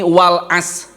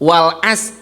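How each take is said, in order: First: The final r sound is left out. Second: The same.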